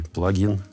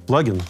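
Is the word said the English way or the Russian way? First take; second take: Russian; English. First: The word is pronounced the Russian way. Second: The word is pronounced the English way. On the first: "а русский" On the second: "Английский он говорит"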